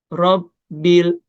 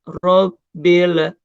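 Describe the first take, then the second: First: The l sound is cut off cleanly. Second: The l sound bounces with an added echo. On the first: The speaker calls it right. "Lam sukun uh, juga jangan sampai mantul" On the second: The speaker calls it wrong. "Jadi enggak Robbil. Nah, kadang-kadang ada yang baca seperti itu"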